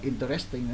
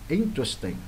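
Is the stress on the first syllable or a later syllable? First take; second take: later; first. First: The stress falls on a later syllable. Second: The stress falls on the first syllable. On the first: The speaker calls it wrong. "có nhiều em còn đọc là interesting nữa là sao?" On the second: The speaker calls it right. "nhấn bắt đầu nha"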